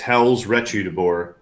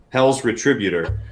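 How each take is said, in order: First: The stress falls on an unexpected syllable. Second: The stress falls on the expected syllable. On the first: The speaker calls it wrong. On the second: The speaker calls it right.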